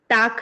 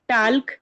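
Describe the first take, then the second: First: Said with a flat 'aa' vowel and no L. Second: Said with an 'aa' vowel and the L sounded. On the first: "टाल्क या टाक नहीं कहेंगे" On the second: "टाल्क या टाक नहीं कहेंगे"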